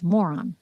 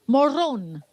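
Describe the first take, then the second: First: "moron" said as the English word, stress on MO; "moron" as the English insult, stressed on the first syllable; English pronunciation. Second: "Morón" in a Spanish accent, rolled r, stress on the last syllable; "Morón" pronounced as in Spanish, stressed on the final syllable. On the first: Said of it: "if we wanna say it in English". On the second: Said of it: "I'm saying it with my Spanish accent". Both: Shown as a demonstration.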